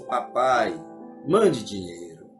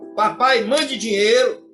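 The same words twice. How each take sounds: First: It is read in a soft, tender tone. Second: It is read in an angry, shouting tone.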